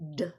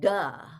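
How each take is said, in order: First: The d sound is made with no vowel after. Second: A short uh vowel follows the d sound. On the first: The speaker calls it right. "It's ... d" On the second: The speaker calls it wrong. "it's not ... and duh"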